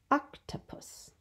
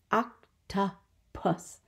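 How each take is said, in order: First: Said in the usual way. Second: "Octopus" slow, in three separate beats; syllable by syllable. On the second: Shown as a demonstration. Teacher showing a three syllable word, "Octopus" slowly broken in three. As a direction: pause after each syllable of "Octopus". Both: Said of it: "Another three syllable one".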